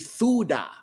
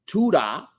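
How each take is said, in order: First: The word begins with a th sound. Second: The word begins with a plain t sound. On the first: The speaker calls it right. "it should be thuda" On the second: The speaker calls it wrong. "instead of me saying tuda"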